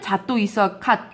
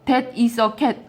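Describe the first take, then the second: First: It is said with Japanese-style pronunciation. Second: It is said with ordinary English pronunciation.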